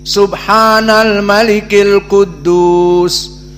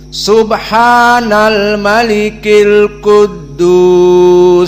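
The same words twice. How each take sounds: First: The ending is said at normal length and volume. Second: The ending is lengthened and said in a raised voice.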